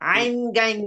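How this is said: The letter names are said in Urdu style. The speaker calls it wrong.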